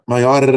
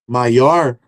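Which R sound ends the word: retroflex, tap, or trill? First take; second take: trill; retroflex. First: The final R is a rolled trill. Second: The final R is curled back, retroflex. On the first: "o R do do Faustão, aquele R vibrante" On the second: "esse R retroflexo"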